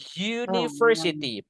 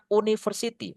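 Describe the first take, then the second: First: The word begins with a y sound. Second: The word begins with a plain vowel sound. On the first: The speaker calls it right. "bacanya itu kan university" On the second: The speaker calls it wrong. "bukan university"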